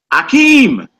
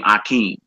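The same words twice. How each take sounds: First: High, loud held-out AKEEM; movie-style name call. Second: Said in the usual way. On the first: Acted. Teacher quoting Coming to America, high drawn-out call. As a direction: call out "Akeem" like a comedy film line. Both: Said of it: "that was Eddie Murphy's name on Coming to America".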